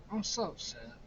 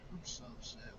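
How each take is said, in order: First: Said in the usual way. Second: Drops much softer on the repeat; sulky under-the-breath echo; softly repeating how upset he is; muttered upset. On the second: Real, not acted.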